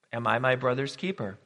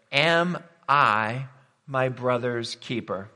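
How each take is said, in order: First: Said in the usual way. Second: Drawn out word by word with deliberate gaps; slow, weighty quotation. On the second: Acted. Preacher quotes Cain's question to the congregation, slow and weighty. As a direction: pose the question very slowly, weighing each word.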